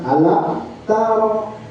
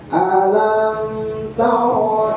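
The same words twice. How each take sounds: First: The m sound is cut off abruptly. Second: The m sound is held moderately. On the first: The speaker calls it wrong. "alam taro itu sida" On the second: The speaker calls it right. "Sedang aja"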